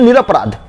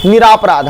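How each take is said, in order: First: निरपराध with a short अ after र; correct pronunciation. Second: निरापराध with a long आ after र; wrong pronunciation. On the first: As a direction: keep र short in निरपराध, ni-ra-pa-raadh. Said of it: "हम लोग बोलते हैं". (निरपराध में 'र' छोटा बोलें) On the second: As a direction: stretch the second vowel in निरापराध, ni-raa-praadh. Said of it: "ये नहीं बोलते होंगे". (निरापराध में 'रा' को लंबा बोलें) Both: Shown as a demonstration.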